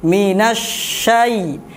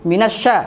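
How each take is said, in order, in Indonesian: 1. Bunyi sh mengalir dengan hembusan nafas yang panjang. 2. Bunyi sh terputus mendadak. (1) "dialirkan terlebih dahulu" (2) "jangan langsung"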